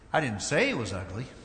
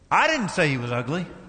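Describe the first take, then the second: First: The stress is on the word 'say'. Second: The stress is on the word 'I'. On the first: The speaker may have implied it without saying it. "Might have implied he was ugly, but I didn't say it" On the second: Someone else said it. "take the first letter, the first word rather. And what if you put the emphasis there?"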